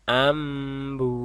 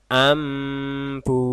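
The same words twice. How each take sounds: The two takes are said the same way.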